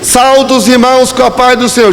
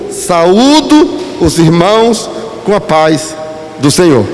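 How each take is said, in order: First: The first word sounds like saldo, two syllables. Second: The first word sounds like sa-ú-do, three syllables. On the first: The speaker calls it wrong. "Saldo, irmão, saldo é de banco" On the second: The speaker calls it right. "O correto é saúdo"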